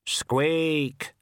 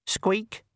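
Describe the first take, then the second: First: Death of Rats. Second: High, pitiful little rat squeak; pathetic squeak. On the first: Death of Rats answers the ghost, slow hollow squeak. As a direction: answer like a grim tiny reaper. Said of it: "said the death of rats". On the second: Ghost rat pleads with Death, high pitiful squeak. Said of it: "said the ghost of the rat pathetically". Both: Acted.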